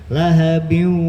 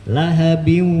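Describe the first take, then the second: Both takes have the same delivery.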